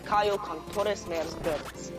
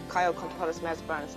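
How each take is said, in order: First: Each word is pushed out strongly and precisely. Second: The words are run together softly and loosely. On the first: The speaker calls it right. "Like force it out" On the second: The speaker calls it wrong. "It's not"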